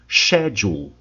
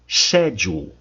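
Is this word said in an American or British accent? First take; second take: British; British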